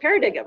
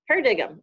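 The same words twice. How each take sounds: First: The word is sounded out letter by letter. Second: The word is said the usual way.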